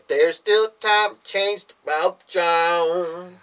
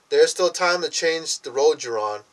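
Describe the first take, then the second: First: The ending is slurred so it sounds like 'rope, John'. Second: The ending is spoken plainly as 'road you're on'. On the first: "let me say it the way he said it. Which was said kind of a funny way" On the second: "I said it normal"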